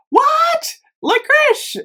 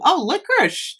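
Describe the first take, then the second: First: High, surprised disbelief. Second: Said in the usual way. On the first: Real, not acted. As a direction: genuinely caught off guard. Surprised by the scent name.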